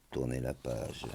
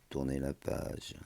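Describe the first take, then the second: No difference in how they are said.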